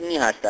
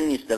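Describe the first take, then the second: First: It is said fully as two separate words. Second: It is squeezed into one short contracted word. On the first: The speaker calls it right. "ولی درستش نی هسته هسته" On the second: The speaker calls it wrong. "تنبلیش به هسته بگن نی هسته میگن نیسته"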